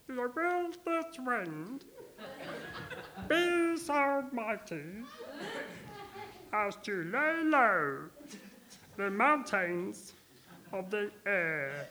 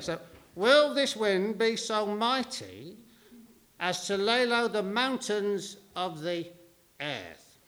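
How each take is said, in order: First: It is said very softly, almost inaudibly. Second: It is said at normal, clearly audible loudness.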